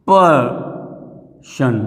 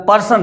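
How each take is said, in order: First: person drawn out as two parts, पर, then शन; split into syllables. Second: Said in the usual way. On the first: Shown as a demonstration. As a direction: say person very slowly, pausing between पर and शन. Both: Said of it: "ये एक आपका syllable कहलाएगा".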